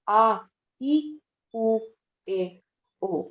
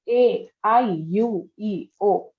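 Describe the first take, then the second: First: The vowels are said as short pure vowels. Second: The vowels are read as English letter names. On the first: The speaker calls it right. "पर हम इसको बोलते हैं आ ई उ ए ओ।" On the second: The speaker calls it wrong. "ये इंग्लिश में नजर आ रहा है ना।"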